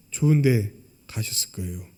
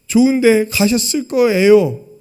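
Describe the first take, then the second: First: Said in the usual way. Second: Louder and slow, weighing 좋은; emphatic stock phrase. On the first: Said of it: "꼭 뭐라고 얘기하는지". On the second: Retold or imitated. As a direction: lean on each word to expose the cliché. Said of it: "무슨 말이에요?". (천천히 힘주어 상투적 위로처럼)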